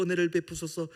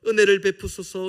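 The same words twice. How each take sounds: First: Said in the usual way. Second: Crying out. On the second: Retold or imitated. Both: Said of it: "부르짖는 것처럼".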